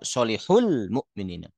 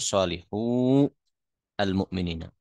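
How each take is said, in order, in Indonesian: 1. Kata-kata itu menyatu menjadi solihul. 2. Setiap kata diucapkan terpisah dengan al yang penuh. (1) "kalau kita baca" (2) "kalau dibaca satu-satu"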